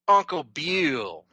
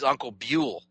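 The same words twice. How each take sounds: First: It is said in a put-on announcer voice. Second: It is said in a plain conversational voice.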